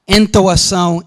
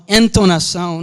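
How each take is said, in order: First: "Entoação" without an N, nasal vowel then "-toação"; Portuguese pronunciation. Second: "entonação" with a clear N sound before "-ação"; Portuguese pronunciation. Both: Shown as a demonstration. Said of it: "nobody even knows whether the N comes or goes".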